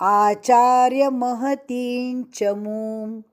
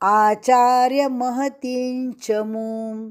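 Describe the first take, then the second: No difference in how they are said.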